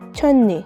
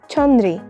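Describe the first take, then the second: First: The second syllable starts with an n sound. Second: The second syllable starts with an r sound. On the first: The speaker calls it right. "we pronounce it as chonni" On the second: The speaker calls it wrong. "is written as chonri"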